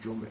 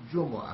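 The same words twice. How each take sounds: First: The middle consonant has no vowel after it. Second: The middle consonant is followed by a u vowel. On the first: This is the shortened everyday form. "ولی جمعه هم بگیم درسته" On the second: This is the original full form. "اصل جمعه هست"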